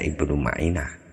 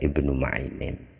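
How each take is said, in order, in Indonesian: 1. Nama ini berakhir dengan vokal biasa, tanpa n. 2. Nama ini berakhir dengan bunyi n tambahan. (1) "mengikuti pola fi'il maka bacanya ya Ibnu Ma'inah" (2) "maka ma'inun ini bisa dibaca Ibnu Ma'inin"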